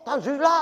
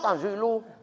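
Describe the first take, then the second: First: The word ends with an a vowel. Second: The word ends with a u vowel. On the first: It is the object of an omitted verb meaning read. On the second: It is the predicate of an omitted subject.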